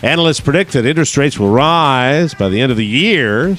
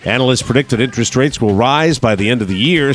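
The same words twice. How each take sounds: First: The final words of the sentence are drawn out. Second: The sentence ends at a normal, brisk pace.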